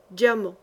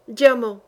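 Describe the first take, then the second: First: Said in the usual way. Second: DIAMANT flung out louder, falling hard; furious cry. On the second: Acted. Holy fool raging at the old enemy, a loud furious cry. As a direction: spit out the word in rage.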